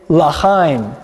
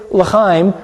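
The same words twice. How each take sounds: First: L'chaim with the first syllable as a full "La"; more of an ah. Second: Said in the usual way. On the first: Shown as a demonstration. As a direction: say L'chaim slowly as "lah-chaim". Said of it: "a little more of an ah there". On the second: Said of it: "Did you hear the difference?".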